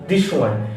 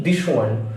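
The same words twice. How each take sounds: Both takes have the same delivery.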